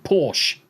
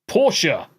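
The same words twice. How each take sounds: First: Said in the usual way. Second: Porsche said as POR-shuh; mocking POR-shuh for Porsche; pretentious pronunciation. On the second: Shown as a demonstration. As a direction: add a second syllable to Porsche, POR-shuh. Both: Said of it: "you fucking pretentious bastards".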